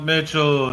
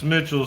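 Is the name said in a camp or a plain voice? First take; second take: camp; plain. First: The name is said in a camp manner. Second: The name is said in a plain manner. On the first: This is how others wrongly say the name. The speaker calls it wrong. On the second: This is how the owner says the name. The speaker calls it right.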